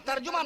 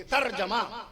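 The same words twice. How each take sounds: First: "ترجمہ" as tar-ju-ma; mistaken pronunciation. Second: "ترجمہ" as tar-ja-ma; corrected pronunciation. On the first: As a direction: put a u after the j in "ترجمہ". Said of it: "ترجمہ نہ کہا کیجئے". ("ترجمہ" میں جیم پر پیش) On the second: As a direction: put an a after the j in "ترجمہ". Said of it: "جیم پہ زبر لگائیے". ("ترجمہ" میں جیم پر زبر) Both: Shown as a demonstration.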